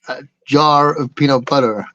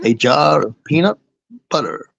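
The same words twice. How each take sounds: First: It is said in a plain, ordinary voice. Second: It is said in a mysterious, trailer-style voice. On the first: "say it the American way" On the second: "it sounds more mysterious as well"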